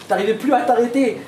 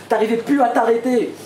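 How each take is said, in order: Both takes have the same delivery.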